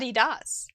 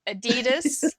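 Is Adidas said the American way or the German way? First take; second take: German; American. First: It is said with a German pronunciation. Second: It is said with an American pronunciation. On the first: "but it's ... and that's how my dad always said it" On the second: "the way Americans say German companies' names"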